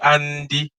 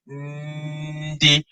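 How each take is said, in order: First: It begins with an open vowel before the n. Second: It begins directly with a light nasal n. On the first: The speaker calls it wrong. "you don't say andi, you don't open your mouth" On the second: The speaker calls it right. "So you say ndi"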